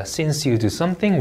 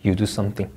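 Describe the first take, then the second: First: 'Since you do something' drawn out, lifting at the end; rising intonation. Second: 'You do something' lower and softer, settling at the end; falling intonation. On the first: Teacher modelling a since-clause, slow rising tune. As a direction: end 'something' on an unfinished rise. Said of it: "올려 읽고요". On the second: Teacher modelling the main clause, falling tune. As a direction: let 'something' drop to close the sentence. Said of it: "하고 내려 읽습니다". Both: Shown as a demonstration.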